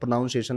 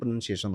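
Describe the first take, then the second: First: The second syllable sounds like 'nown'. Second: The second syllable sounds like 'nun'. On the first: The speaker calls it wrong. "नहीं" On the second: The speaker calls it right. "होता है"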